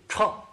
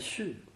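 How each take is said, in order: First: The syllable starts with a 'ch' sound. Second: The syllable starts with an 'x' sound. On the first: It is the sound of footsteps. "这个数字在新华字典上，念差" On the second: It means suddenly. "在这个地方呢，是念续"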